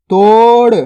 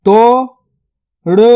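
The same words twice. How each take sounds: First: Said in the usual way. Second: Word split into two spaced syllables. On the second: Shown as a demonstration. Teacher sounding out a word for learners, syllable by syllable. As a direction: sound out each syllable separately, long gap between.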